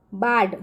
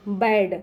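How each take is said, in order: First: बाड read letter by letter with a long आ, like बा plus ड; barahkhadi reading. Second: बैड read as English "bad", slow and drawn out, with the ऐ vowel. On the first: Teacher showing children the barahkhadi way: बाड with a long आ. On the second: Teacher showing children the English way: बैड said slowly with ऐ. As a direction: say बैड slowly, stretching the ऐ sound. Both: Shown as a demonstration. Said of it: "इसको हम इस तरह से भी पढ़ते हैं".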